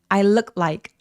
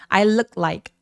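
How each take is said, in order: First: Said quickly with the t sound dropped. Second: Said quickly with the t sound dropped.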